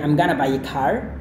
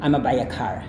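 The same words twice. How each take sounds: First: Going to is reduced to gonna. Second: Going to shrinks to a single a sound. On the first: "dihilangkan lagi menjadi I'm gonna buy a car" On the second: "kemudian dihilangkan lagi"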